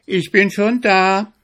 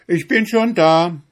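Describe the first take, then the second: First: High, loud triumphant call. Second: High, loud call across the field. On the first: Acted. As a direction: call it to the arriving hare. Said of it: "rief dem Zwenigel seine Frau". (triumphierender Ruf, hoch und laut) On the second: Retold or imitated. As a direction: shout it like you're already there. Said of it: "so rufst du ihm entgegen". (laut rufend, hoch)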